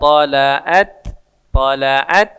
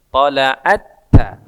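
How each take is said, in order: First: The first t is released separately before the next. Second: The first t merges into a doubled t. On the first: The speaker calls it wrong. "jangan dibaca" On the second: The speaker calls it right. "Karena dia masuk ke huruf berikutnya"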